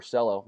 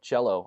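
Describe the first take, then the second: First: Cello with an opening s sound; s pronunciation. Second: Cello with an opening ch sound; ch pronunciation. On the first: Streamer offering another reading of the coin's name, Cello begun with s. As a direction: say Cello as "SELL-oh". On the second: Streamer unsure of the coin's name, Cello begun with ch. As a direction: say Cello as "CHEL-oh". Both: Shown as a demonstration. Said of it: "Not sure how it's pronounced".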